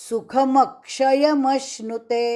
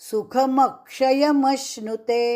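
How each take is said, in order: The two takes are said the same way.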